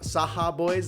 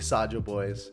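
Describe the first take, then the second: First: The J is said like a Spanish J. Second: The J is said like an English J. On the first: The speaker calls it wrong. "that's the Mexican in me" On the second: The speaker calls it right. "It's probably Saja Boys"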